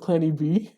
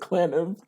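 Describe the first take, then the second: First: The name is said as two parts. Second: The name is said as one word. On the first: The speaker calls it right. "when it was Clanny B" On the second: The speaker calls it wrong. "people used to call me Clanib"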